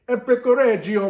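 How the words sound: It is said with an Italian accent.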